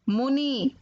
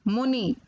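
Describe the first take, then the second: The two takes are said the same way.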